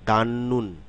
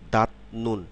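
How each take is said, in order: First: The first syllable ends in an n sound. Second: The first syllable ends in a t sound. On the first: The speaker calls it right. "এর উচ্চারণটি হবে দান নুন" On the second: The speaker calls it wrong. "আসলে দাঁত নুন না"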